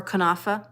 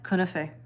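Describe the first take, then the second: First: Kunafa with open "ah" vowels at the end; alternative pronunciation kunafa. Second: Kunefe with an "eh" vowel in the later syllables; pronounced Kunefe. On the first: Host offers viewers the other name for the dessert, pronounced kunafa. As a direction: say kunafa, ending on "fa" rather than "feh". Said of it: "some people might call it". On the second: Host names a Turkish dessert she likes, pronounced Kunefe. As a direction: say Kunefe, ending on "feh" rather than "fa". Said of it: "Or kunafa, some people might call it". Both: Shown as a demonstration.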